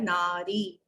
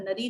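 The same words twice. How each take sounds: First: "नारी" with long "naa"; low, measured "नारी", both vowels long; correct form. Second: "नरी" with short first "a"; short, unstretched opening of "नरी"; wrong form. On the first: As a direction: draw out "नारी" as "naa-ree". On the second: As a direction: say "नरी" quickly as "na-ree". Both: Shown as a demonstration. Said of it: "नरी नहीं होता है".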